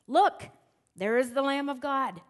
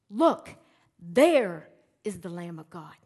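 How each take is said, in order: First: The line is read plainly, without special emphasis. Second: The line is read with strong, deliberate emphasis.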